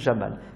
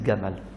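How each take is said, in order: First: The name starts with a soft J sound. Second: The name starts with a hard G sound, Egyptian style.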